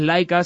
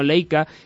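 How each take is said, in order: First: The first syllable is pronounced like 'lai'. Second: The first syllable is pronounced like 'lei'. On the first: This is the name of the Soviet space dog. The speaker calls it wrong. "la cámara no es Leica" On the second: This is the name of the camera brand. The speaker calls it right. "sino Leica"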